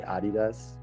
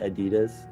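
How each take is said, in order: First: It is said with a German pronunciation. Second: It is said with an American pronunciation. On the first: "Germans say Adidas" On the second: "Americans say Adidas"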